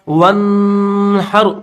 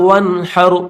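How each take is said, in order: First: The n is held with a long nasal hum. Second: The n is said plainly without a nasal hum. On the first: The speaker calls it wrong. "वनहर नहीं पढ़ेंगे, ये पढ़ना बिल्कुल गलत है" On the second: The speaker calls it right. "सही तरीका ये है"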